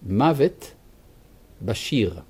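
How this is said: Modern Hebrew style, with 'sh' in the last word. "בעברית"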